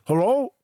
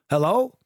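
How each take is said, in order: First: It is said in a muffled voice. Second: It is said in a clear, normal voice.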